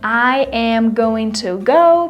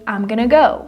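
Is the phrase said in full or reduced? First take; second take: full; reduced. First: Every word is pronounced fully and separately. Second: The words are contracted and run quickly together. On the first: "this full phrase" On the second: "It's so much faster"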